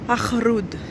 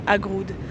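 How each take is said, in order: First: The middle consonant is a throaty r sound. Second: The middle consonant is a hard g sound. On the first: The speaker calls it right. "ça se dit Arroud" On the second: The speaker calls it wrong. "les Marocains se sont moqués de moi parce que je disais Agroud"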